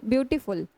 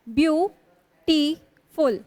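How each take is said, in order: First: Said in the usual way. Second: beautiful very slowly in three beats, view - टी - फुल; long stops between the syllables of beautiful. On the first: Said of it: "कैसे बोलते हो आप". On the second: Shown as a demonstration. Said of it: "मैं तीन बार में बोल रही हूँ".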